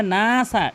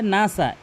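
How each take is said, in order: First: নাসা with long first "naa"; নাসা said "naaaa-sa"; one-alif stretch. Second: নাসা with both vowels short; নাসা without stretching the first vowel; wrong short vowel. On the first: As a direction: hold the first vowel of নাসা. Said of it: "এক আলিফ টেনে পড়তে হবে". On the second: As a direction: show faulty quick নাসা. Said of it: "মারাত্মক লেভেলের ভুল". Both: Shown as a demonstration.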